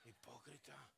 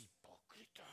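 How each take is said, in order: First: "hipócrita" with a quiet scornful laugh, falling tune; scoffing laugh. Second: Muttered hipócrita. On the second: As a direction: whisper "Hipócrita" with a rising tune, voiceless and low. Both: Pretend. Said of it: "lo mira a usted y dice".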